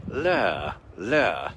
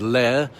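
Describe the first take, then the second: First: LAIR with a falling glide, teeth together; clenched-teeth posh. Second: Said in the usual way. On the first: Shown as a demonstration. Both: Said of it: "and so teeth together".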